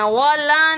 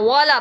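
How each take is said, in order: First: والا with the لا dragged long; wrongly stretched. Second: والا with both vowels kept short; correct short vowels. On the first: Teacher shows the mistake, long stretched لا in والا. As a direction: draw out the last vowel of والا. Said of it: "والا نہیں پڑھنا". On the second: Teacher models for students, short unstretched والا. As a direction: say والا quickly, without stretching the لا. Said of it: "والا پڑھنا ہے". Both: Shown as a demonstration.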